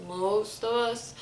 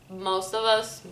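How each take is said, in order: Both takes have the same delivery.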